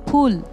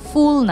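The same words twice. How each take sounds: First: The word begins with an aspirated p sound. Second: The word begins with an English f sound. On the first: The speaker calls it right. "ফুল ফ ফ হবে" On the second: The speaker calls it wrong. "এফ না, ফুল না"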